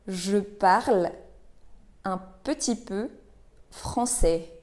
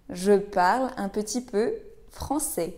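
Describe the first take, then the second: First: Word by word. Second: Said in the usual way. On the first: Shown as a demonstration. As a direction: pause after parle and after peu. Teacher models phrase word by word.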